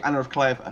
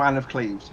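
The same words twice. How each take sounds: First: "Anna of Cleves" with two-syllable "Anna" and "KLAY-vuh"; original German pronunciation. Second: "Anne of Cleves" with one-syllable "Anne" and "KLEEVZ"; anglicised pronunciation. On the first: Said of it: "couldn't pronounce Cleves, apparently". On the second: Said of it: "No one corrects the king". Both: Shown as a demonstration.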